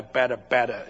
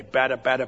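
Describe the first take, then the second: First: Said in the usual way. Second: Bata bata said as a distinct foreign-sounding babble, pætə pætə; mock babble sounds. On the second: Shown as a demonstration. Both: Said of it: "B A T T A".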